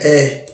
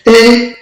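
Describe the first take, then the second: First: E on a low falling Yoruba tone. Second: E on a high Yoruba tone, pitch raised. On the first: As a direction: drop the pitch low on E. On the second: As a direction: lift E up high. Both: Shown as a demonstration. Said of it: "Donc, pareil".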